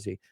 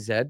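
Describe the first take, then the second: First: The letter is pronounced the American way. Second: The letter is pronounced the Canadian way. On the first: "but World War Z" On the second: "in Canada, we would say Z"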